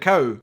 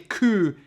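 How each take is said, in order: First: The vowel is an 'ow' glide sound. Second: The vowel is a long 'oo' sound. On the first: This is how it is said outside Scotland. "instead of cow" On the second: This is how Scottish people say it. "For us in Scotland, we would say coo"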